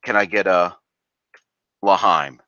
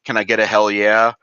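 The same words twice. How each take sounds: First: Mock toast call. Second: Hype call. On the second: Retold or imitated. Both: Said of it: "let me give you a L'chaim instead of".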